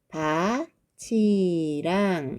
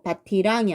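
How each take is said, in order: First: The middle consonant sounds like ch. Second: The middle consonant sounds like t. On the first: The speaker calls it right. "구개음화 적용해서 밭이랑 요렇게 발음을 해야지 맞는 거죠" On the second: The speaker calls it wrong. "그대로 밭이랑이 아니라"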